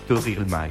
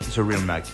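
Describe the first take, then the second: First: The name is said with a French accent. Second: The name is said with an American accent. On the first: "Pour les Français" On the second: "Comme ça se prononce pour les Américains"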